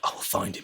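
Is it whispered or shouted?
whispered. It is said in a threatening whisper.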